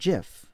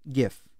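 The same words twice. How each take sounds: First: The word starts with a soft G sound. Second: The word starts with a hard G sound. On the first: The name follows how its creator says it. "the inventor of the GIF or the GIF says that it is pronounced GIF" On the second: The name follows the word graphic. "we start with a hard G from graphic"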